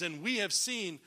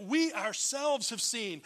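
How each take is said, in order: First: Said in the usual way. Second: Slow, with WE OURSELVES leaned on and raised; emphatic WE. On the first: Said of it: "I know in here it says". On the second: Shown as a demonstration. Preacher showing how the verse reads, emphatic stress on "we ourselves". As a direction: lean hard on "we ourselves", stretching it out. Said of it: "is emphatic, and you might even read it".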